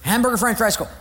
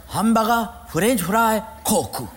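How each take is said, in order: First: Said in the usual way. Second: Hamburger said as hambaga, broken Japanese English; Japanese accent. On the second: Retold or imitated. Learner repeating new words to the teacher in Japanese accent.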